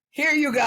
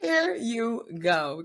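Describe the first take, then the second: First: High, loud "here you go"; excited promo pitch. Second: Very slow, high "here you go"; drawn-out promo line. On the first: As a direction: hand it over with a big raised-pitch exclamation. Pitching a promo, first quick take. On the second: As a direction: stretch every word out like a slogan. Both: Acted.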